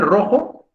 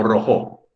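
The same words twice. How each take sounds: First: "rojo" said as ROjo; weight on RO in "rojo", as a question; stress on first syllable. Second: "rojo" said as roJÓ; stress on last syllable. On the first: Teacher offering two options to pupils, "rojo" stressed on RO. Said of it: "¿Solo puede ser rojo". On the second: Teacher offering the other option, "rojo" stressed on JO. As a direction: shift the weight of "rojo" onto JO. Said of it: "Solo puede ser rojo o". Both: Shown as a demonstration.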